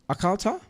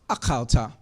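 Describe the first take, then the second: First: It is said with a questioning tune. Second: It is said with a statement tune. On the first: Asking whether the listener ate. "Did you eat?" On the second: Stating that the listener ate. "You ate"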